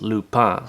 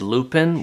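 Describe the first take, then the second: First: It is said the French way. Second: It is said the English way, like the flower. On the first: The speaker calls it right. "in France it's actually pronounced Lupin" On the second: The speaker calls it wrong. "I'm used to pronouncing it as Lupin, which is a flower that we have here"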